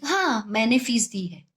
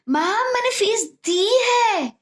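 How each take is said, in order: First: It is said plainly, without extra force. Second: It is said forcefully, with strong emphasis.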